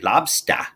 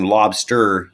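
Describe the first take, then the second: First: It is said with a New England accent. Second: It is said with a general American accent. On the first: "you're going to say lobster, like S T A H" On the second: "instead of saying lobster"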